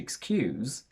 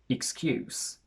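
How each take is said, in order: First: The final sound is a voiced z. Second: The final sound is a voiceless s. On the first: It is a verb. "if it's a verb, we use a voiced Z" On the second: It is a noun. "if it's a noun or an adjective, we use the voiceless S"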